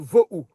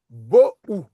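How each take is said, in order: First: The word begins with a soft V sound. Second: The word begins with a hard B sound. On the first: "il prononce" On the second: "on devait dire"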